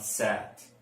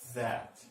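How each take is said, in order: First: It begins with a hissing s sound. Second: It begins with a soft th sound. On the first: The speaker calls it wrong. "not sat" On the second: The speaker calls it right. "but that"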